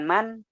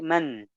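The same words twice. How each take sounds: First: The n is plain, without nasal resonance. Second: The n flows through the nose, unheld. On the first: The speaker calls it wrong. "Bukan man" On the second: The speaker calls it right. "Suara ke rongga hidung dan tanpa ditahan"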